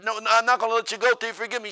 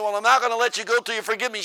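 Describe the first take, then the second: First: High, loud refusal to let go; preacher gripping her hand, loud insistence. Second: High, loud stubborn repeat; preacher refusing to let go, loud insistence. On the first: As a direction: dig in and insist. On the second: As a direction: say it again, just as stubborn. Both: Retold or imitated.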